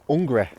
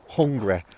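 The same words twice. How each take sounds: First: The word begins without any h sound. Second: The word begins with a clear h sound. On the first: "I say hungry. Um, I drop the H" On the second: "So I don't say hungry"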